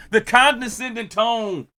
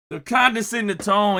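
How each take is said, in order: First: Slow mocking shout. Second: Said in the usual way. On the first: Shown as a demonstration.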